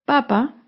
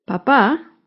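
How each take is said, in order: First: Papa with the first syllable stressed, PA-pa. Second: Papá with the last syllable stressed, pa-PÁ; stress on second syllable. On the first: Teacher showing learners the word for food, first-syllable stress on Papa. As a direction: say Papa leaning on the opening PA. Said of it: "lleva el acento en la primera sílaba". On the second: Teacher showing learners the word for father, final stress on papá. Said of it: "lleva el acento en la segunda sílaba". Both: Shown as a demonstration.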